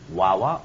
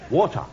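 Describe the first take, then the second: First: It is said in a New York accent. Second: It is said in a British accent.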